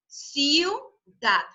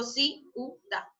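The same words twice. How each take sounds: First: "Ciudad" in two syllables, "ciu" glided together; correct diphthong. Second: "ciudad" split as ci-u-dad, the vowels broken apart; wrong split syllables. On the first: Teacher modelling the right "Ciudad" for the class, diphthong kept. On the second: Teacher showing the class the wrong "ciudad", split syllables. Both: Shown as a demonstration. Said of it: "Yo no digo ciudad, no".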